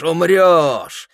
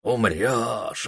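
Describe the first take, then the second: First: Higher, louder accusing cry; loud, menacing shout. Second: Said in the usual way. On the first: A narrator's reading. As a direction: hurl it like walls screaming at him. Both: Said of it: "закричали стены".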